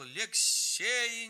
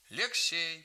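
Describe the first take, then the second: First: High, louder desperate shout of the name; grandmother's cry. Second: Calling. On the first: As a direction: cry out the boy's name to shield him. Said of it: "закричала". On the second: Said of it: "позвал дед". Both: A narrator's reading.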